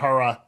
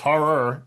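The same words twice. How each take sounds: First: The word ends with an open ah sound. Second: The word ends with a clear R sound. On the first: The speaker calls it wrong. "not an A at the end" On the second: The speaker calls it right. "say horror with their R at the end"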